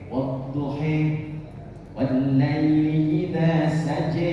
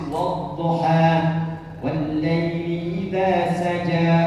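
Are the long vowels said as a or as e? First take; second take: e; a. First: The long vowels are said as e. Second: The long vowels are said as a. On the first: "riwayat untuk mengakomodir yang e" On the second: "dibacakan Hafiz dari Asim"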